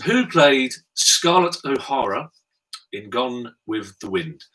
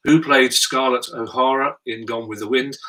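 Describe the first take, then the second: First: Slow question read. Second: Said in the usual way. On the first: Shown as a demonstration. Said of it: "I'll read them slowly". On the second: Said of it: "I'll read them again".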